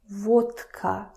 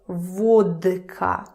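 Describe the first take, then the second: First: The consonant before k is voiceless, like t. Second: The consonant before k is voiced, like d. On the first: The speaker calls it right. "Now listen to me pronouncing this word" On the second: The speaker calls it wrong. "I'm not saying vodka"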